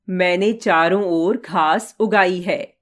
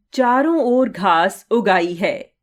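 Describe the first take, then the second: First: Said in the usual way. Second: उगाई as two words, उग and आई; juncture inside उगाई. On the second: Shown as a demonstration. Teacher contrasting word boundaries, उगाई split into उग आई. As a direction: split उगाई lightly after the ग sound. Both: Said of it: "दोनों प्रकार के वाक्यों का अंतर समझिए".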